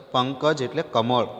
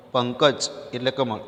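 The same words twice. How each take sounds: The two takes are said the same way.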